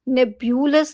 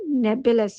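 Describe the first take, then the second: First: The second syllable has a 'y' glide: byu. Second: The second syllable has no glide: bu. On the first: The speaker calls it wrong. "नेब्यूलस नहीं है" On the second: The speaker calls it right. "नेबुलस है"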